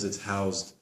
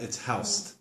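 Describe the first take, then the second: First: Housed is said with a Z sound. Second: Housed is said with an S sound. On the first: The speaker calls it right. "because it's housed" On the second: The speaker calls it wrong. "not it's housed"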